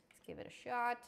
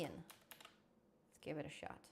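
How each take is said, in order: First: Said in the usual way. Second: Slow, breathy under-the-breath try; a slow, hushed whisper to himself; whispered aside. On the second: Real, not acted. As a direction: murmur it to yourself, slowly. Testing the voice app again.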